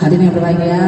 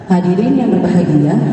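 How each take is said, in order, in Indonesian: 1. Nada tetap datar tanpa melodi sama sekali. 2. Terdengar kaku, seperti orang membaca dari naskah. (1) "jangan sampai yang data terus. ... Kan gak enak" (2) "intonasinya kayak membaca ... kayak orang membaca, gak enak juga"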